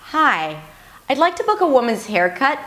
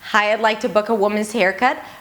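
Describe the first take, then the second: First: The pitch glides, changing on every syllable. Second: The pitch stays flat and monotonous throughout. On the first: The speaker calls it right. "it had that nice glide" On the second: The speaker calls it wrong. "it wasn't monotonous"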